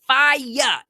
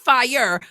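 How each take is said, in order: First: It ends with a drawn-out 'yah' sound. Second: It ends with a plain r sound. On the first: The speaker calls it right. "F I Y A H" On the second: The speaker calls it wrong. "not fire"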